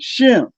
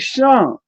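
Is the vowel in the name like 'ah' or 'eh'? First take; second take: eh; ah. First: The vowel sounds like 'eh'. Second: The vowel sounds like 'ah'. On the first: This is the modern Hebrew form. "In modern Hebrew, they you pronounce it Shem" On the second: This is the ancient Canaanite form. "in the Phoenician or in the Canaanite, it'll be Sham"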